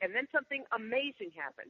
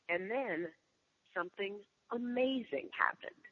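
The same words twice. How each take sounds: First: It is said loudly without dramatic pauses. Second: It is said with dramatic pauses inside it.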